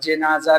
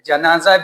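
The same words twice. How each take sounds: First: The first vowel is an 'i' sound. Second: The first vowel is an 'a' sound. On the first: "जीम के ज़ेर के साथ भी है" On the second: "जीम के ज़बर के साथ भी है"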